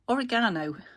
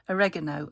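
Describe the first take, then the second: First: It is said with a British pronunciation. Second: It is said with an American pronunciation. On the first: "oregano in the U K" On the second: "You don't call it oregano. You say it differently"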